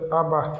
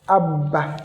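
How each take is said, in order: First: The b sound is short and single. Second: The b sound is held and doubled.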